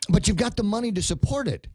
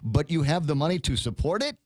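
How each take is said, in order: First: The voice falls at the end like a statement. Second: The voice rises at the end like a question. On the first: It asserts a fact. "making that sound like a statement" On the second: It asks for confirmation. "let me try it this way"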